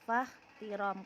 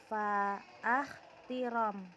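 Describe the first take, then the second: First: The first syllable runs straight into the next. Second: A glottal stop follows the first syllable. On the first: The speaker calls it right. "tapi fakhtiram karena dia hamzanya hamzah wasol" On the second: The speaker calls it wrong. "Bukan fa'akhtiram"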